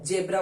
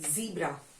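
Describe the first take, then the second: First: The first vowel is a short eh sound. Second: The first vowel is a long ee sound.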